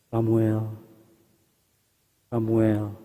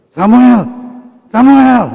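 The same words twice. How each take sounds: First: It is said at a normal, soft volume. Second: It is said much louder.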